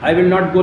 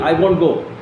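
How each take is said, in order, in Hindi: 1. नकार पूरा बोला गया है, दो शब्दों में। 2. नकार छोटा होकर एक संक्षिप्त शब्द बन गया है।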